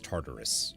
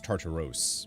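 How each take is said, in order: First: The last syllable is said with an 'us' sound. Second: The last syllable is said with an 'os' sound. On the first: The speaker calls it right. "I think you still pronounce that as Tartarus. Even though it doesn't have the U" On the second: The speaker calls it wrong. "I don't think it's Tartaros. Maybe it is"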